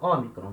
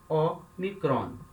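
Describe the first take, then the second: First: It is said as one single word. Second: It is said as two separate parts. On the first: The speaker calls it wrong. "A gente lê como se fosse uma coisa só" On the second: The speaker calls it right. "a pronúncia mais correta é Omicron"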